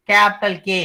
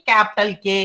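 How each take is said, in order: Both takes have the same delivery.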